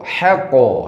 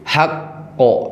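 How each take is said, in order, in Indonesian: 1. Bunyi q pendek, tidak ganda. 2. Bunyi q dibaca ganda dan ditahan lebih lama. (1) "eh kalau tidak ada tasydid" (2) "Kalau ada tasydid"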